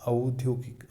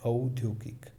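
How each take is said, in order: Both takes have the same delivery.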